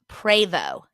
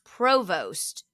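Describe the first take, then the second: First: The final T is silent. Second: The final T is sounded. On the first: The speaker calls it right. "The T is silent" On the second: The speaker calls it wrong. "I'm saying that wrong"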